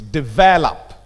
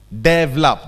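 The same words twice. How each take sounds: First: The stress is on the second syllable. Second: The stress is on the first syllable. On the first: The speaker calls it right. "The stress is on the second syllable" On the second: The speaker calls it wrong. "The stress is on the first syllable"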